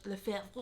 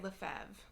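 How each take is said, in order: First: It is said the French way. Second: It is said the American way.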